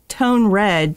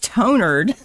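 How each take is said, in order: First: It is said as two separate words. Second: It is run together as one word. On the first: The speaker calls it right. "it was called tone red" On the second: The speaker calls it wrong. "but it all was together. And I was like, what is tonered?"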